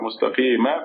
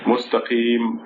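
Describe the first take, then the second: First: The word ends with a short a vowel. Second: The word ends on the m consonant. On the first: "a meme with a fatha" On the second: "when you stop, it makes it"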